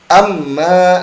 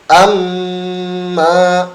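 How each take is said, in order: First: The nasal m is held only one short beat. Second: The nasal m is pressed and held long. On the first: The speaker calls it wrong. "ini kan tidak sempurna ya, hanya satu ketukan saja" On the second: The speaker calls it right. "ada tekanan dulu dan masuk ke hidung dengan sempurna"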